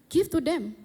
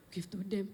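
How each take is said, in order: First: Higher, brief imitated instruction; retold command. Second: Low-key, softer repeat; baffled echo. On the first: Retelling the Holy Spirit's prompt at lunch, commanding. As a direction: give it as a sudden prompt. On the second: Retold or imitated. Questioning the Holy Spirit at lunch, quietly baffled. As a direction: drop down soft, questioning the order.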